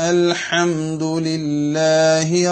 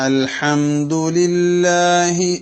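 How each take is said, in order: The two takes are said the same way.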